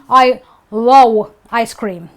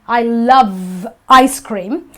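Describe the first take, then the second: First: The word love is said with a w sound. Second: The word love is said with a v sound. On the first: The speaker calls it wrong. "who have an issue with saying this word, they may end up saying" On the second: The speaker calls it right. "No, you say, I love"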